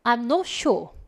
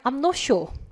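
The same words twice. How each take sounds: First: It is said in a British accent. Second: The same.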